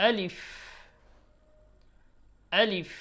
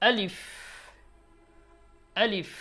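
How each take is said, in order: The two takes are said the same way.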